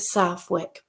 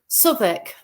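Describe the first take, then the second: First: The name is said the way an outsider says it. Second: The name is said the way locals say it. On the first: This is how a visitor might say the name. The speaker calls it wrong. "I call it Southwick, but there you go. I got it wrong" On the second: This is how residents say the name. The speaker calls it right. "Southwick is how you have to pronounce it, I've been told"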